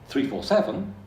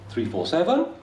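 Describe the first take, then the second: First: The pitch falls at the end and stays down. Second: The pitch falls and then rises at the end. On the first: "is down. It's that arrow going down" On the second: "is down up"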